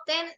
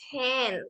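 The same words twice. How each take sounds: First: Said in the usual way. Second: Ten with a breathy puff after the T, slow; aspirated T. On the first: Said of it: "No ten, sino ten, con aire". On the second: Shown as a demonstration. Teacher correcting José Arturo, aspirated ten. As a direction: give ten an airy aspirated T. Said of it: "con aire".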